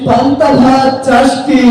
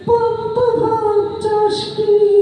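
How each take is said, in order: First: The line is recited through bursts of laughter. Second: The line is recited in a tearful, crying voice. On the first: The reciter finds the poem too funny to finish. "হাসির ঠেলায় কবিতা আবৃত্তি করতে পারলো না" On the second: The reciter is overly emotional. "সে শুধু কথায় কথায় কান্দে"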